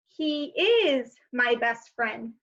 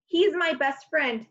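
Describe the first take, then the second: First: "is" stressed and slow; slow, full form. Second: Said in the usual way. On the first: Shown as a demonstration. Teacher slowing down to show the long form. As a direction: say each word apart, leaning on "is".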